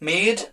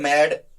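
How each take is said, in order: First: The vowel is long, like in 'say'. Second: The vowel is short, like in 'sad'. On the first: The speaker calls it right. "It's मेड, मेड, मैकिंग" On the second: The speaker calls it wrong. "Not मैड, मैड"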